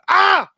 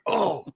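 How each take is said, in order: First: The exclamation is shouted loudly. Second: The exclamation is said quietly.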